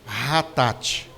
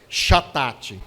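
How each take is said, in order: First: The first sound is an R-like sound. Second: The first sound is the Portuguese ch sound. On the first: The speaker calls it right. "o C H tem som de R" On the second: The speaker calls it wrong. "fosse ler assim no português mais simples"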